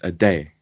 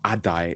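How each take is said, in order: First: The name ends sounding like 'day'. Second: The name ends with an 'eye' vowel. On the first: The speaker calls it right. "it's a day" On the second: The speaker calls it wrong. "it's not Adai"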